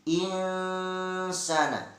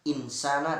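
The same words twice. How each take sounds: First: The n is hidden in a drawn-out nasal sound. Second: The n is said clearly and quickly. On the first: The speaker calls it right. "tapi insana, itu yang betul" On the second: The speaker calls it wrong. "jadi salah ketika kita mengucapkan insana"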